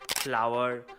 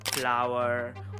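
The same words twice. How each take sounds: First: Indian accent, without the tongue curled back for r. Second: American accent, with the tongue curled back for r. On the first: "जब हम Indian accent में गाते हैं" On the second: "American accent में ... जुबान को पीछे की तरफ रोल करना होता है"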